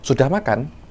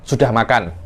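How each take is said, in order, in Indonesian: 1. Diucapkan sebagai pertanyaan. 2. Diucapkan sebagai pernyataan biasa. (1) "satunya tanya" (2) "Satunya kabar"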